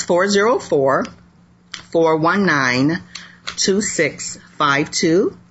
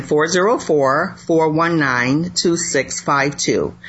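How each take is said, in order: First: Slow, spaced-out phone number; reading digits one by one. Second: Slow digit-by-digit repeat; reading digits one by one. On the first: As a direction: read each digit slowly and clearly. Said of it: "let me give that out". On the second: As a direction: say the number again slowly, digit by digit. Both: Shown as a demonstration.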